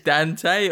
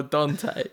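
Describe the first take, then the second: First: Dante with a short A, as in "pan"; flat-A Dante. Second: Dante with a long open AH; broad-A Dante. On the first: Co-host asks which way the name goes, short-A Dante. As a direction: say Dante as DAN-tay, short A. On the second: Co-host offers the other option for the name, broad-A Dante. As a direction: say Dante as DAHN-tay. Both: Shown as a demonstration. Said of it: "depends what side of the world".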